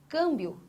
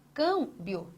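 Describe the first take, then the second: First: Said in the usual way. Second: "câmbio" split into câm and bio; syllable by syllable. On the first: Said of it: "Olha aí, ó". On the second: Shown as a demonstration. Teacher shows Rose the split, syllable by syllable. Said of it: "Aqui, ó".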